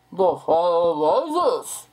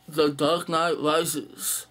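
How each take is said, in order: First: Slow, louder masked-villain growl on the title; the cliché Bane impression, slow and loud. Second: Said in the usual way. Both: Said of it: "they have to do a Bane impression".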